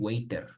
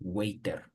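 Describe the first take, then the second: First: It is said with a Spanish-style R sound. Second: The same.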